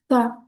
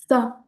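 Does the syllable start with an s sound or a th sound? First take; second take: th; th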